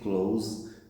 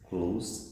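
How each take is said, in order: First: The word ends with a buzzing Z sound. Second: The word ends with a hissing S sound. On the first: It is the verb. "as a verb, and now you have Z sound" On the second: It is the adjective. "close as an adjective is S sound"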